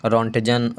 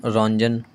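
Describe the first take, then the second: First: रॉन्टजन with the T sounded before the J; रॉन्टजन, hard T kept in the middle; exact name pronunciation. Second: रॉन्जन with no T, N straight into J; रॉन्जन, the middle T dropped; alternative pronunciation. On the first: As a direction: say रॉन्टजन in full, "ront-jan". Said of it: "exact नाम रॉन्टजन ही है". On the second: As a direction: say रॉन्जन as "ron-jan". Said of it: "कुछ लोग रॉन्जन भी पढ़ते हैं". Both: Shown as a demonstration.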